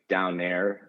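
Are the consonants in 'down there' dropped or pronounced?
dropped. Some consonants are dropped in a local accent. "a lazy dialect where they don't pronounce like consonants"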